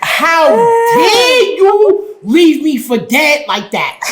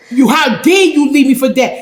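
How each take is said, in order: First: Indignant retold confrontation. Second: Said in the usual way. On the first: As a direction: stretch every word like you can't believe it. Retelling confronting her boyfriend.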